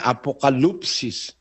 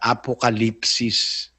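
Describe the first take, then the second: First: The third syllable has an 'oo' vowel. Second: The third syllable has an 'ee' vowel. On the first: This follows the written reading guide. "kung babasahin mo, ang naglagay na paraan ng pagbasa, nakalagay" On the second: This follows the Greek pronunciation. "sa tamang pronunciation sa Grego"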